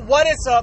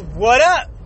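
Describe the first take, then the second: First: All three words are said in full. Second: The middle word is dropped entirely. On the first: "no more what is up" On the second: "It's what up"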